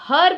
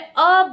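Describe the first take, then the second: First: The word begins with an h sound. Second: The word begins with a vowel sound. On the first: The speaker calls it wrong. "हम इसको हर्ब नहीं बोल रहे" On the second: The speaker calls it right. "अर्ब बोल रहे हैं"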